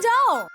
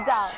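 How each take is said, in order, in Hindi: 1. यह रूखे ढंग से कहा गया है, एक सीधे आदेश की तरह। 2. यह नरम और प्यार भरे ढंग से कहा गया है। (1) "ऐसे नहीं" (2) "जरा प्यार से कहो।"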